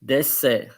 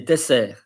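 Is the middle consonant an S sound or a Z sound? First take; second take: S sound; S sound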